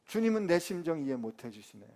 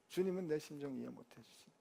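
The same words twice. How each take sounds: First: Grumbling 주님은 내 심정 이해 못 해주시네 with a fall on 주님은; half-voiced complaint, 주님은 stressed, falling at the end; sulky grumble. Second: 주님은 내 심정 이해 못 해주시네 repeated much softer, under the breath; muttered grumble. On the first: Pastor playing Paul, grumbling at the Lord. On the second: Pretend. Pastor as Paul, muttering his complaint to himself. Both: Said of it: "제가 바울이라면 저 열 더 받았을 것 같아요".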